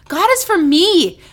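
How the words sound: The stress is on me.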